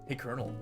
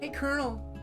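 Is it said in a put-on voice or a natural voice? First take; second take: natural; put-on. First: It is said in a natural voice. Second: It is said in a put-on voice.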